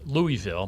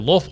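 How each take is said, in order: First: It is said the standard outsider way. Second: It is said the way city natives say it. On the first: The speaker is from outside the area. "the proper pronunciation is Louisville" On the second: The speaker is from the city itself. "those of us who are native there"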